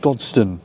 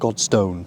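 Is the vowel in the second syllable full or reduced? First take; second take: reduced; full. First: The second vowel is reduced to a schwa. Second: The second vowel is a full vowel. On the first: The speaker calls it right. "The O is reduced to schwa" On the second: The speaker calls it wrong. "not Godstone"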